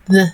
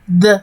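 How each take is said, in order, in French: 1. Le premier son est un th doux et léger. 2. Le premier son est un d dur et lourd. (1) "il y a un qui est un peu léger" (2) "le son est un peu lourd"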